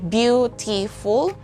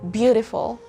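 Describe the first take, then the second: First: The middle T is pronounced strongly and clearly. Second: The middle T is only faintly heard. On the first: The speaker calls it wrong. "I don't say T, I don't say beautiful" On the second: The speaker calls it right. "You can just faintly hear T here"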